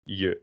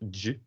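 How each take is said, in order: First: It is said with a y sound. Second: It is said with a dj sound. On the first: The speaker calls it right. "but je" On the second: The speaker calls it wrong. "not j, like in jam"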